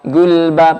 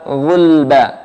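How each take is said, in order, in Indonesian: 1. Bunyi pertama adalah g keras. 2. Bunyi pertama adalah gh tenggorokan. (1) "Jangan ghulba atau gulba pakai G" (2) "Pakainya gha"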